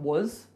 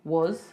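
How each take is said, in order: First: The word has a weak, reduced vowel. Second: The word has a weak, reduced vowel.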